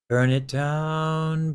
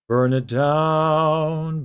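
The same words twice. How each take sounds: First: The voice sounds plain, with little drama. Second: The voice sounds open and more dramatic. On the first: "when my false folds are in like a neutral position ... Not a lot of drama" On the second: "if I retract my false folds"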